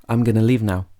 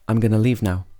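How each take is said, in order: First: Going to is shortened to gonna. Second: The same.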